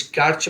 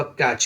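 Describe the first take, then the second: First: First "कैच" said as kaat-ch; t sounded. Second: "कैच" said as catch with one CH sound; silent t. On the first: Teacher warning against a reading, T sounded in "कैच". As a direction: say "कैच" with a separate T before CH. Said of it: "माने ना हो के". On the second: Teacher giving the correct reading, "कैच" with silent T. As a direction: say "कैच" with no separate T. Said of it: "होगा कैच". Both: Shown as a demonstration.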